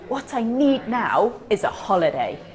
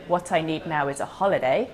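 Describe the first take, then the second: First: The key information is said with strong stress. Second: It is said flat, without stressing key words.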